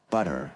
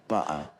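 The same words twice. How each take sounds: First: "butter" with the T as a D; American "budder" for "butter"; American accent. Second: "butter" with the T left out, Cockney style; Cockney "bu'er" for "butter"; Cockney accent. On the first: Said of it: "the T is pronounced as a D". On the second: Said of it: "leave the T out altogether and say". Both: Shown as a demonstration.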